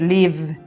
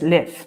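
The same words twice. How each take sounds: First: The word ends with a voiced v sound. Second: The word ends with an f-like sound. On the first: "Podéis decir live" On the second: "pero es live"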